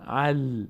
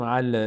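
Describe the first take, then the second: First: ال with a still ل; correct ال. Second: ال with the ل bounced; wrong ال. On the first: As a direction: keep the ل in ال still. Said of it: "نه، ال". (ال بدون لرزش) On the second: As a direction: make the ل in ال bounce. (ال با لرزش نادرست) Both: Shown as a demonstration.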